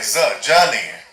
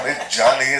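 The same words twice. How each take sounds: First: ज with a buzzing z sound, as ज़ा; correct za sound. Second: जा with a plain j sound, the way the friend said it; wrong ja sound. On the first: Shown as a demonstration. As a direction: say ज़ा with the proper Urdu z. (ज़ का सही उच्चारण) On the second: Retold or imitated. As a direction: say जा the wrong way, with a hard ज. (जा का गलत उच्चारण)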